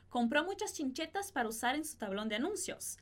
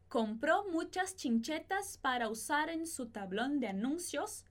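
First: The sentence is spoken at a faster pace. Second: The sentence is spoken at a slower pace. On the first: "E agora mais rápido" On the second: "Repete comigo"

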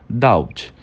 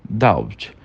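Both takes have the same delivery.

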